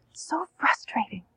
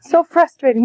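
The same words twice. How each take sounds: First: Soft whispered so frustrating. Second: Said in the usual way. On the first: Shown as a demonstration. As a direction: whisper it soothingly to the child. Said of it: "what do you say". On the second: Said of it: "then what do you say?".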